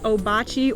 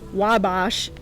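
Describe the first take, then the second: First: It is said as three syllables, 'oh-bah-chee'. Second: It is said as two syllables, 'wah-bash'. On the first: "I'm just going to say it both ways" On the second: "I'm just going to say it both ways"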